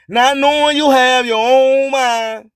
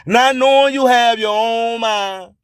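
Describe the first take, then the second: No difference in how they are said.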